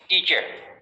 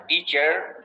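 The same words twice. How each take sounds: First: It ends without any r sound. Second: It ends with an audible r sound.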